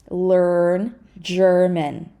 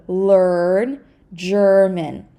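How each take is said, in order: Both takes have the same delivery.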